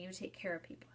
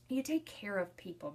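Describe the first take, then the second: First: Whisper. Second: Said in the usual way. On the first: Retold or imitated. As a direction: repeat it in a soft whisper, no voice. Daughter's answer repeated, whispered.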